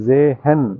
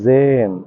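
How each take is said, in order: First: The h sound is heard between syllables. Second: The h sound is silent in one syllable. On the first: The speaker calls it wrong. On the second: The speaker calls it right.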